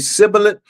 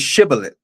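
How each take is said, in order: First: The word begins with an s sound. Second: The word begins with an sh sound. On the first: The speaker belongs to the other tribe. "the other tribe said sibboleth" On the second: The speaker belongs to the first tribe. "one tribe was able to say shibboleth"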